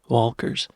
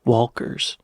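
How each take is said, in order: No difference in how they are said.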